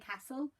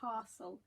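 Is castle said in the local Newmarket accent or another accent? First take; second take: other; Newmarket. First: It is said the way some other people say it. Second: It is said in the local Newmarket accent.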